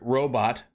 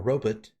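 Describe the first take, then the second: First: The word has its usual modern pronunciation. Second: The word has an old-fashioned, dated pronunciation.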